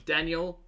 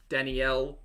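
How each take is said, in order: First: Daniel as DAN-yul; two beats, weak ending on Daniel; testing the name. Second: Danielle as dan-ee-ELL; three beats in Danielle; testing the name. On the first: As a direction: try out Daniel as "Dan-yull". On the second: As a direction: try out Danielle as "Danny-ell". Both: Shown as a demonstration.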